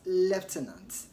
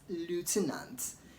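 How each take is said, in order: First: The word is said the British way. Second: The word is said the American way. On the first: "in British English as" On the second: "in American English they pronounce the word as"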